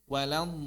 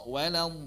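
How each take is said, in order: No difference in how they are said.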